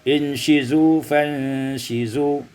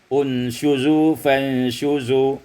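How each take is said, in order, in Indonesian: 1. Vokal setelah sh adalah i. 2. Vokal setelah sh adalah u.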